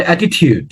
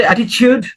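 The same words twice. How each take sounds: First: অ্যাটিটিউড with a clear t sound, at-i-tood; American pronunciation. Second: অ্যাটিটিউড with a ch sound, at-i-chood; British pronunciation. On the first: Teacher showing IELTS students the American অ্যাটিটিউড, t sound. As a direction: say অ্যাটিটিউড the American way, plain t in the middle. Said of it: "আমেরিকানসরা বলে". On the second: Teacher showing IELTS students the British অ্যাটিটিউড, ch sound. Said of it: "ব্রিটিশরা বলে". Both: Shown as a demonstration.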